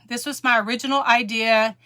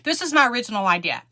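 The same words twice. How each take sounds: First: It is said in a warm, friendly tone. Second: It is said in a sharp, accusing tone. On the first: The person is happy others use the idea. "I'm so glad that someone's using it or something" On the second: The person resents others using the idea. "No, she didn't say it like that"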